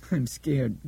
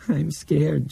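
First: Put-on thin, wavery child voice. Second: Put-on higher, frightened child voice; scared child. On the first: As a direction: let the child's voice waver thinly. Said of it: "in a thin, wavery voice". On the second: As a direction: say it again, more frightened. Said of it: "she repeated".

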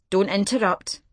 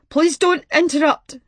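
First: Said in the usual way. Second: Louder, pleading don't; tearful plea. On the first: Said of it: "V had told her". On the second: A narrator's reading. Grieving caller silencing Martha, louder tearful plea. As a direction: beg her not to cut in. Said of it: "Something in his voice kept Martha quiet".

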